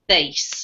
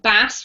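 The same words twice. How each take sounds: First: It is pronounced the way the music term is. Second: It is pronounced the way the fish name is. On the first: It refers to low musical sounds. "if it's referring to music, we pronounce it bass" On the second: It refers to a fish. "you can pronounce it bass when it refers to a fish"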